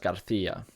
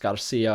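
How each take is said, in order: First: The c is said as a th sound. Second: The c is said as an s sound. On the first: This is the pronunciation used in Spain. "in Spain, um, is pronounced as Garcia" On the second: This is the Latin American pronunciation. "in Latin America would be pronounced Garcia"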